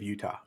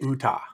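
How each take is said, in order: First: The word is pronounced in an ordinary way. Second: The word is pronounced in a harsh, Klingon-like way. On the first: "instead of Utah" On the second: "I would always say Utah"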